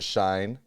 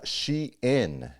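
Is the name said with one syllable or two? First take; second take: one; two. First: It is said as one syllable, rhyming with shine. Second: It is said as two syllables, she plus in. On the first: The speaker calls it wrong. "I've always pronounced it Shine" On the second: The speaker calls it right. "apparently it's actually pronounced She-in"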